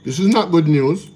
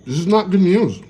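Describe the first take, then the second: First: "not" pressed a little higher and louder; stress on not. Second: Higher, louder mocking of the excited anchor, "not" rising. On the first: Real, not acted. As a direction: lean on "not" to scold the excitement. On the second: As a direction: parrot her upbeat tone back sarcastically. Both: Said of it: "Why are you so excited".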